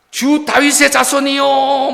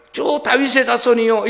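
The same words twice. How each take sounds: First: Crying out. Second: Said in the usual way. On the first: Acted. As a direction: call out to him as Messiah, drawn out. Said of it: "막 이러면서 외쳤던 거예요". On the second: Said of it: "이것은 무슨 말이냐면".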